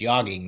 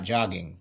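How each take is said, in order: First: The word begins with a Y sound. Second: The word begins with a J sound. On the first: The speaker calls it right. "it's yogging, The J is silent" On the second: The speaker calls it wrong. "not jogging"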